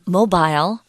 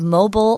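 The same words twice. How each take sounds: First: It is said in a British accent. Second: It is said in an American accent.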